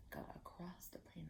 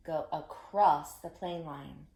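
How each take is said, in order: First: Whisper. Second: Slow, clear Go across the plane line; slow teacher voice. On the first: Teacher whispering the echo for the kids. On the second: Teacher modelling the line slowly for kids. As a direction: lay out each word slowly. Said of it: "you say it after me". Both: Shown as a demonstration.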